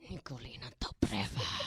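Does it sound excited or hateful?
hateful. It sounds cold and full of hate.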